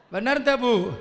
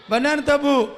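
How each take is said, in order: First: Said in the usual way. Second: A bit louder, coaxing an answer; louder call-and-response prompt; pressing repeat. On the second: Shown as a demonstration. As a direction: push the crowd to reply.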